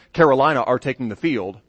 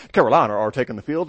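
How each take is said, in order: First: Said in the usual way. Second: Quick, light British accent on "Carolina are taking the field". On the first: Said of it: "if you heard an American say". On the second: Shown as a demonstration. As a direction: toss it off like a British announcer. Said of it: "from a nice British accent".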